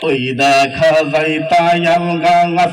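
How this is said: It is declaimed in a drawn-out preaching style. The reciter is a preacher who works up the crowd. "বক্তা টাইপের মানুষ, ... ওয়াজ টোয়াজ করে"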